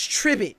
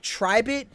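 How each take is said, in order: First: The word rhymes with 'ribbit'. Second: The word does not rhyme with 'ribbit'. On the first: The speaker calls it right. "but it's Tribit, like Ribbit" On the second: The speaker calls it wrong. "I was saying Tribit"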